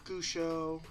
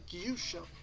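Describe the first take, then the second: First: The name begins with a plain 'goo' sound. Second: The name begins with a 'gyoo' sound. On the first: Other people guessed it this way. "they'd say Gusho or Geshu or whatever" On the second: The owner of the name says it this way. "I pronounce it Gyusho"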